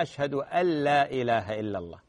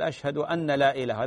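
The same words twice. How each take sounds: First: أن لا merged as ألّا, the nun swallowed into a doubled lam; correct pronunciation. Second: أن لا with the nun sounded separately, not merged into لا; wrong pronunciation. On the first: Sheikh showing the caller the correct adhan reading, doubled lam. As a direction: glide أن لا into one word with a stressed doubled lam. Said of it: "هذا هو النطق الصحيح". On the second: Sheikh demonstrating the callers' wrong adhan reading, nun kept separate. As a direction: read أن لا as two cut words, the muezzin's mistake. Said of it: "هذا خطأ". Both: Shown as a demonstration.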